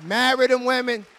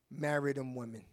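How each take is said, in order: First: Said in the usual way. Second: Soft, low command; quiet command. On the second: Shown as a demonstration. Pastor tells the men softly to marry. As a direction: say it low and firm.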